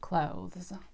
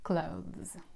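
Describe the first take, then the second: Both takes have the same delivery.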